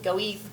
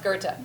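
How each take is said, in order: First: The name is read the way it looks. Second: The name is said unlike its spelling suggests. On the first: The speaker calls it wrong. "it looks like it should be pronounced Goeth" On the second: The speaker calls it right. "It's pronounced Goethe"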